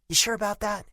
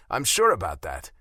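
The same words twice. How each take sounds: First: High, pointed doubtful jab; challenging tone. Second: Mocking echo of her, louder; mimicking her tone. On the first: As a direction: needle him with the question. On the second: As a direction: throw her own tone back at her. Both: A narrator's reading. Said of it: "I mimicked her tone".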